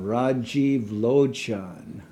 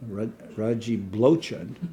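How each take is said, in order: First: The second word begins with an l sound. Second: The second word begins with a b sound. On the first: The speaker calls it right. "we could understand Rajiv Lochan" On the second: The speaker calls it wrong. "they can't even pronounce their name"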